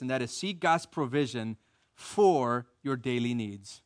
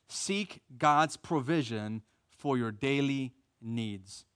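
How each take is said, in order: First: Said in the usual way. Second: Slow emphatic repeat. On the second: Shown as a demonstration. Preacher repeating the point to the church, slow and deliberate. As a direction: let each word land as he repeats the point. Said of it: "repeated for emphasis".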